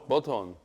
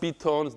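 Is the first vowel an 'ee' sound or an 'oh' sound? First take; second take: oh; ee. First: The first vowel sounds like 'oh'. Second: The first vowel sounds like 'ee'. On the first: The speaker calls it right. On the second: The speaker calls it wrong. "It's not Biton. There's no I in there"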